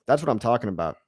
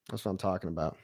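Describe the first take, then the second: First: Said in the usual way. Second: Quiet echo. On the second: Real, not acted. Repeats line, much quieter.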